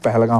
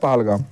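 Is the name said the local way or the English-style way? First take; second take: English-style; local. First: The name is said with an anglicized pronunciation. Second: The name is said with a local Kashmiri pronunciation. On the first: This is how someone acting English says it. "जो अंग्रेज बना हुआ होता है वो बोलता है" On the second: This is how local people say it. "हम बोलते हैं"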